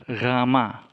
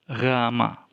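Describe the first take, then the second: No difference in how they are said.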